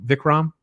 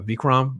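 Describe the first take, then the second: First: Vikram with a short "i", as VICK-ram; first syllable of Vikram rhymes with "sick"; short I pronunciation. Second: Vikram with a long "ee", as VEEK-ram; first syllable of Vikram rhymes with "seek"; long EE pronunciation. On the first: Corrects to second pronunciation. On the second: Trying two pronunciations of title. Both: Real, not acted.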